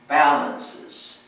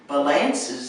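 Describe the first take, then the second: First: The stress is on the first syllable. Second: The stress is on a later syllable. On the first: The speaker calls it right. "the emphasis is on the first syllable" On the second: The speaker calls it wrong. "the emphasis on the wrong syllable"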